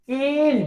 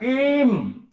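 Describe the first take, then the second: First: The word ends with the lips left open. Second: The word ends with the lips pressed closed. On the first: The speaker calls it wrong. "Dah tua pun tak dapat lagi dapat sebut" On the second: The speaker calls it right. "Guru kata kim"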